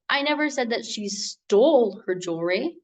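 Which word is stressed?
stole. The word "stole" carries the stress. She may only be borrowing it. "meaning that she didn't steal it, maybe she's just borrowing it"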